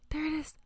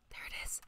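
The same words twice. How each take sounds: First: Voiced, high, excited exclamation; excited spotting. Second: Awed whisper on spotting it. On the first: Streamer finally spots the fish, high excited voice. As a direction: let it pop up high with delight. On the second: Streamer spots a fish in the tank, awed whisper. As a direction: whisper it, hushed and unvoiced. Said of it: "Why am I whispering?". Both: Real, not acted.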